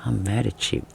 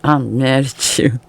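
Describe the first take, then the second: First: Soft, pouty mock anger; a quiet, half-hearted grudge; mock pout. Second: Slow, drawn-out pretend anger; a sulky grudge that won't quite stick; slow mock sulk. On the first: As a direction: mumble it like a sulking kid. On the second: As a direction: stretch it out like a stubborn pout. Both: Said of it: "you're standing there like".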